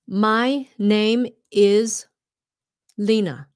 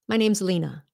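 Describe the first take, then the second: First: Each word is said fully and separately. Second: The words are shortened and run together. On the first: The speaker calls it wrong. "when you learn things like" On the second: The speaker calls it right. "it becomes shorter and it all just blends together"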